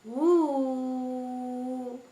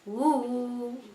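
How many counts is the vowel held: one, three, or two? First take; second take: three; two. First: The vowel is held for three counts. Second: The vowel is held for two counts. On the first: "And then there is the third one. Ooh. Three" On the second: "if you want to make it a little longer, ooh, two"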